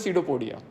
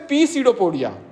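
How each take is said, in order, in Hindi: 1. शुरुआती p ध्वनि मौन रहती है। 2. शुरुआती p ध्वनि ज़ोर से बोली जाती है। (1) "कोई बोले क्या है तो बोलते" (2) "एग्जाम में उसको हम लोग पढ़ते थे, कैसे पढ़ते थे"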